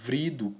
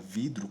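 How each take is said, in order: First: The r comes right after the v. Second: The r comes right after the d. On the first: The speaker calls it wrong. "elas estão é, erradas" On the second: The speaker calls it right. "a forma correta"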